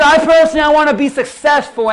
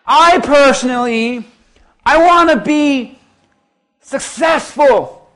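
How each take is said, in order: First: Loud, high mock of her boast; mocking shout. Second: High, slow, loud sneer on successful; slow mocking impression. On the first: Preacher mocking the woman's boast to the church, loud and high. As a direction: belt her words back at the crowd. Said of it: "She said this". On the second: Preacher imitating the woman's boast slowly to the congregation. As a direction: stretch it out like her smug boast. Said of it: "And she was like".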